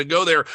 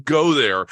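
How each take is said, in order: First: Said in the usual way. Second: "go" pushed out louder; stress on go. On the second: Real, not acted. Judge urges the actor to commit, punching "go". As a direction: punch "go" hard, louder than the rest. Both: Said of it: "if you're gonna go there, go there".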